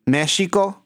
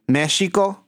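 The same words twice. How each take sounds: First: The x is said like a ch sound. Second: The x is said like a ch sound.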